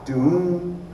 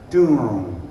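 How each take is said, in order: First: The pitch bends upward through the word. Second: The pitch bends downward through the word. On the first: The bottom head is tuned tighter than the top. "you will get an upward pitch bend" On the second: The bottom head is tuned lower than the top. "you'll get a downward pitch bend"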